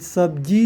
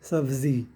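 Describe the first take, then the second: First: The middle consonant is a 'j' sound. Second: The middle consonant is a 'z' sound. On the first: The speaker calls it wrong. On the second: The speaker calls it right.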